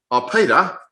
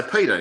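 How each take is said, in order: First: Peter sung out higher and louder, mock-innocent; teasing. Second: Said in the usual way. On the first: Preacher deliberately teasing Alex with the wrong name, playful. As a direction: tease him with a bright Oh, Peter. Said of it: "calling Alex Peter again". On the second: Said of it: "I say".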